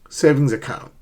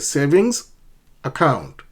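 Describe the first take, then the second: First: The two words are linked together smoothly. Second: The two words are said separately with a break. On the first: The speaker calls it right. "Link the two. Connect the two words" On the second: The speaker calls it wrong. "Do not say savings account"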